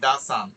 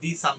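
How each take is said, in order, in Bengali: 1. 'The' শব্দটি ছোট 'thuh' স্বরে বলা হয়। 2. 'The' শব্দটি লম্বা 'thee' স্বরে বলা হয়। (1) "আমি কিন্তু বলছি দা সান" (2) "আমি দি সান বলছি না"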